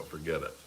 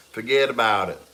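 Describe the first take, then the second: First: Said in the usual way. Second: A loud New York accent that drifts toward Boston. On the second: Shown as a demonstration. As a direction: say it like a New Yorker. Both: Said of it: "I was trying to do New York".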